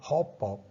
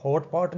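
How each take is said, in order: First: ਹੌਪ ਪੌਪ with T turned into P; assimilation. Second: ਹੌਟ ਪੌਟ with the T at the end of ਹੌਟ kept; ਹੌਟ ਪੌਟ as two separate words, T then P; unassimilated. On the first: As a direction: run the lips shut into ਹੌਪ ਪੌਪ, no T in the middle. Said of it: "ਇਹਨੂੰ ਹੌਟ ਪੌਟ ਨਹੀਂ ਬੋਲਾਂਗੇ". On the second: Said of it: "ਹੌਟ ਪੌਟ ਨਹੀਂ ਬੋਲਾਂਗੇ". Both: Shown as a demonstration.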